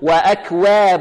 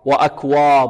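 First: The waw is pronounced exaggeratedly thin. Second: The waw is pronounced heavy and thick. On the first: "والبعض يبالغ في الترقيق يقول" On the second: "الوا هنا يحذر الطالب من تفخيمها، لا نقول وأكواب"

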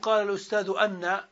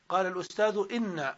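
First: The particle begins with an 'a' vowel. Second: The particle begins with an 'i' vowel. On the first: The speaker calls it wrong. "ما نقول قال الأستاذ أن" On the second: The speaker calls it right. "إذا وقعت إن بعد القول فإنها تكون مكسورة الهمزة"

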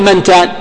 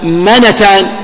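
First: The n has no vowel after it. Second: The n is followed by a short a vowel. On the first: "يعني ما تسكن، ما تقول منتان" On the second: "تفتح النون"

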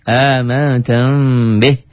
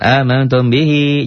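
First: The final vowel is cut short. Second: The final vowel is drawn out long. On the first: The speaker calls it right. "Tidak selamanya dibaca panjang" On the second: The speaker calls it wrong. "Jangan amantum bihi"

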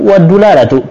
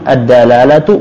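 First: The first d is followed by a u vowel. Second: The first d is followed by an a vowel. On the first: "Dalnya bisa dikasih tiga harakat" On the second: "Dalnya bisa dikasih tiga harakat"

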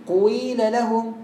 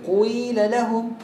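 Both takes have the same delivery.

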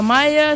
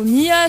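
First: The name is read as one word, Maya. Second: The name is read as one word, Mia. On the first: "c'est pas Maya" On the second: "C'est pas Mia"

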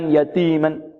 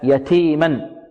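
First: The t is released with no breath. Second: The t is released with audible breath. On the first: The speaker calls it wrong. "البعض لا يأتي بالهمس ... خطأ" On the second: The speaker calls it right. "لابد من الهمس"

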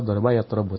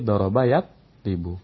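First: The vowel before -bu is not an i. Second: The vowel before -bu is an i. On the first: The speaker calls it wrong. "enggak boleh kita katakan" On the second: The speaker calls it right. "tapi doroba yat ribu"

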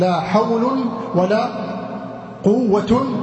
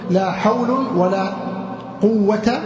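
First: The word quwwa ends with -un. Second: The word quwwa ends with a short -a. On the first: "فيكون لك مع الثاني الرفع" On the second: "والفتح"

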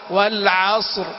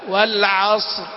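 Both takes have the same delivery.

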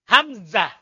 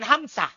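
First: The middle consonant is a buzzing z sound. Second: The middle consonant is a hissing s sound. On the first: The speaker calls it right. "Za. Suara lebah" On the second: The speaker calls it wrong. "Bukan Hamzah"

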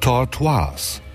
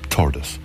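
First: The name is pronounced the French way. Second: The name is pronounced the English way. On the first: The speaker calls it wrong. "Mir schien dieses Wort aus der französischen Sprache entliehen" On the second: The speaker calls it right. "dass Tordes in der englischen Sprache für nichts anderes steht als Schildkröte"

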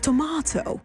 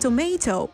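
First: It is said with a British accent. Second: It is said with an American accent. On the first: "maar tomato ... met een Brits accent" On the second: "Ze zeggen geen tomato"

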